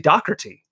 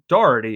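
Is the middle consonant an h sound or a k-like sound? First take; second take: k-like sound; h sound. First: The middle consonant is a harsh k-like sound. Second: The middle consonant is a soft h sound. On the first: "They almost make it a CK instead of the H" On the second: "in the United States, you hear Doherty as the pronunciation"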